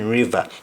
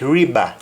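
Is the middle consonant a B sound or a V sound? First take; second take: V sound; B sound. First: The middle consonant is a V sound. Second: The middle consonant is a B sound. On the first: This is the standard English form. "to mean river" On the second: This is the Jamaican patois form. "V sometimes is pronounced as though it is B"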